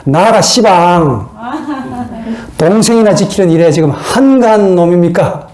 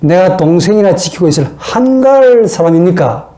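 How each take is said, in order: First: Jeolla dialect. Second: Mock indignant comeback, stressing 한가할; defiant retort. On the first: Acted. Cain answering God, as a drawling Jeolla-dialect retort. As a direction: talk back in broad Jeolla dialect. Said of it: "전라도 버전으로 말하면". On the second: Cain answering God, in a livelier defiant retort. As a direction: talk back with some added attitude. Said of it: "말씨 좀 분위기를 살려가지고 이렇게 표현하면".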